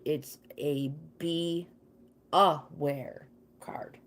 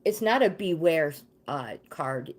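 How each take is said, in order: First: Be aware split apart, slowed and whispered. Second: Said in the usual way. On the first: Shown as a demonstration. Warning Hope the card means be aware, slow hushed split words.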